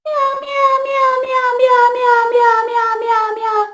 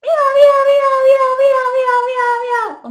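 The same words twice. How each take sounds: First: High loud meows stepping down; cat meow from the front of the mouth; meow variant. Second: High loud meows through a pinched nose; nose-plugged cat meow. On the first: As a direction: meow with a different placement. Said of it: "Sounds pretty different from". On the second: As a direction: meow while holding the nose shut. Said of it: "I'm plugging my nose". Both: Shown as a demonstration.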